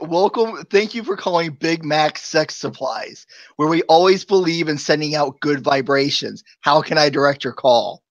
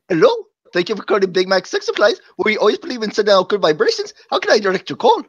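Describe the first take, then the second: First: It is said in his own normal accent. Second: It is said in a put-on Indian accent.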